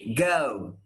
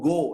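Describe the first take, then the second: First: The vowel glides from one sound into another. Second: The vowel is one steady, unchanging sound. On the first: "when you consider it as a diphthong, this guy becomes ow" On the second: "If you pronounce it like that, it is not a diphthong. It is like one sound"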